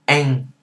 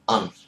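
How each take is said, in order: First: It has an open 'a' vowel ending in ng. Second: It has a short 'uh' vowel ending in n. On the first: "The northerners, they pronounce it as ang" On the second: "That was the southern dialect or the southern accent"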